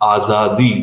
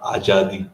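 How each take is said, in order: First: The middle consonant is a z sound. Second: The middle consonant is a j sound. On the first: The speaker calls it right. "this is to be pronounced as Azadi" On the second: The speaker calls it wrong. "not Ajadi"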